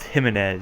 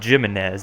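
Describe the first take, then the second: First: The name is said with Spanish sounds. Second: The name is said with English sounds. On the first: The speaker calls it right. "with like a Latin or Spanish or accent" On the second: The speaker calls it wrong. "It's not Jimenez"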